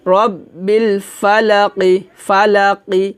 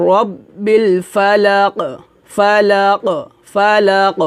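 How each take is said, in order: First: "ফালাকি" recitado devagar, terminando na vogal ই; sem pausa final. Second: "ফালাক" com o Q final rebatido num pequeno eco; qalqalah na pausa. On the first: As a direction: termine "ফালাকি" com o "কি" pleno, sem eco. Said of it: "যদি এখানে আমরা ওয়াকফ ধরি". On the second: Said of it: "এভাবে কলকলা হবে". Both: Shown as a demonstration.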